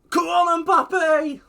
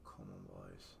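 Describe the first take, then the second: First: Much higher, much louder ecstatic shout; goal scream. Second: Much lower, much softer hope; quietly will the team on; muttered plea. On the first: Cheering his striker's chance, full scream. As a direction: scream it as the ball goes in. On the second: Urging his players under his breath, very soft. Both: Real, not acted.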